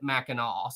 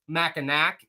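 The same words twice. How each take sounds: First: The name is said the local, accepted way. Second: The name is said the way it is spelled. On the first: "you pronounce it Mackinac" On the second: "it's spelled Mackinac"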